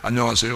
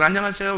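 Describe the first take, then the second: First: It is said imitating a man's voice. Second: It is said imitating a woman's voice.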